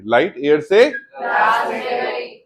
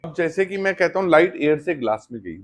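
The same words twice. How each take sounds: First: Slow dictation. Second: Said in the usual way. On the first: Shown as a demonstration. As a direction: read it out slowly like dictation for students to copy. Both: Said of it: "what will I say?".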